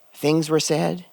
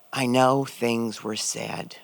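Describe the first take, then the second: First: Said in the usual way. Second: Slowly, a quiet admission; slow, halting brother. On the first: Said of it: "That was the moment". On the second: Retold or imitated. Dying brother, slowly hinting at an apology. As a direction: let each word drag out of him. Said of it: "he looks at me and he says".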